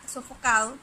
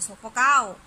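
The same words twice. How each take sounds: First: Said in the usual way. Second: Sofocado said as sofocao, the D between vowels dropped and louder. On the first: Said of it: "en vez de decir". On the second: Shown as a demonstration. Teacher showing how speakers drop the D, louder. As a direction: say sofocado the casual way, swallowing the D: sofocao. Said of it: "dice sofocado".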